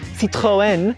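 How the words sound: The name is said with a French pronunciation. "Apparently the French say"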